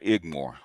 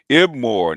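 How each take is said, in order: First: The consonant before 'more' is a g sound. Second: The consonant before 'more' is a b sound. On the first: The speaker calls it wrong. "not Igmore" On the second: The speaker calls it right.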